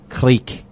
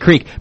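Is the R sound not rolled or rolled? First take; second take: rolled; not rolled. First: The R is rolled. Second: The R is plain, with no roll. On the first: The speaker calls it right. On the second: The speaker calls it wrong.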